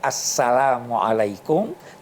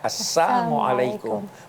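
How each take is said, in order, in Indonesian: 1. Salamnya diucapkan utuh, dengan suku kata 'la'. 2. Salamnya diucapkan terpelintir, dengan suku kata 'la' dihilangkan. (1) "seakan-akan assalamualaikum" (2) "tapi sebenarnya assalamualaikum, mudah-mudahan kematian menimpa kamu"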